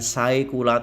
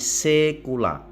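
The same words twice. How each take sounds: First: The 'ae' is said as two vowels. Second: The 'ae' is said as a single 'e'. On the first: The speaker calls it wrong. "bukan saecula" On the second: The speaker calls it right. "A E dibaca E"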